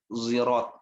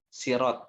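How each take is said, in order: First: The word begins with a z sound. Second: The word begins with an s sound. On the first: "bisa dibaca dengan huruf lain ya, si atau huruf zi" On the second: "Ada yang dengan sin ya"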